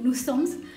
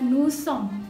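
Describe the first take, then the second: First: A final s sound is pronounced at the end. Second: The word ends without a final s sound. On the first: The speaker calls it wrong. "teman-teman biasanya me me membaca ini sebagai nusoms" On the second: The speaker calls it right. "bacanya adalah nusom"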